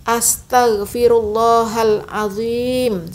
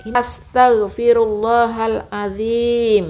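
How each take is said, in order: First: Astaghfirullahalazim with a heavy z, lips rounded, slow; correct heavy z. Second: Astaghfirullahalazim with a thin z, slow. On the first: Teacher shows the correct reading. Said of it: "Seharusnya begitu". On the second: Teacher shows the thin za mistake. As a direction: keep the z thin. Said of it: "Tipis seperti itu". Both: Shown as a demonstration.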